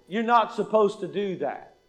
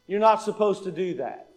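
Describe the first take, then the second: No difference in how they are said.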